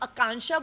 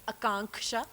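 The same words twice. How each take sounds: First: The middle k sound is left out. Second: The middle k sound is clearly pronounced. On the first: The speaker calls it wrong. "ये जो आकांक्षा बोलते हैं ना, मुझे सबसे ज्यादा गुस्सा आता है" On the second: The speaker calls it right. "जिसमें के बिल्कुल साइलेंट नहीं है, इसीलिए वो के है वहां पे"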